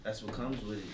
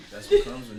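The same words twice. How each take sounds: First: Said in the usual way. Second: Much louder and higher, insisting; emphatic repeat. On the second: Real, not acted. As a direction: hammer the point home the second time.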